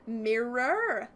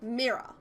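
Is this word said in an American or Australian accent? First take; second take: American; Australian. First: American accent, with the vowels fully pronounced. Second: Australian accent, with the vowels cut short. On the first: "they put the real emphasis on the" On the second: "We forget a lot of the, like the vowels"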